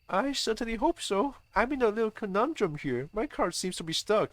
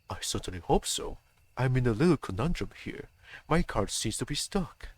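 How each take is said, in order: First: It is said in a higher voice. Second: It is said in a very deep voice.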